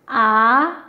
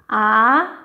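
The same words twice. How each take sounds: First: The pitch rises from middle to high. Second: The same.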